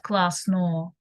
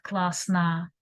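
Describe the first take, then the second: First: Классно with a full clear O sound, said slowly; over-pronounce the O in классно; wrong stressed O. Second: Классно ending in a short neutral a, klasna; right neutral vowel. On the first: Teacher shows the wrong way to say it. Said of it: "not классно". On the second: Teacher shows the right Russian way. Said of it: "but классно". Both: Shown as a demonstration.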